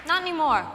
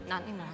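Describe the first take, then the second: First: NOT said high and loud, punched; ringing host delivery; emphatic not anymore. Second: Not said low and much softer; a quiet aside to herself; muttered aside. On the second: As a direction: throw Not away under the breath. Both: Shown as a demonstration.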